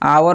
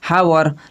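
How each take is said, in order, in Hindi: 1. यह शब्द स्वर से शुरू होता है, h मौन है। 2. यह शब्द स्पष्ट h ध्वनि से शुरू होता है। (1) "इसका साउंड आवर होता है" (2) "बहुत सारे लोग बोलेंगे हावर, लेकिन ये हावर नहीं है"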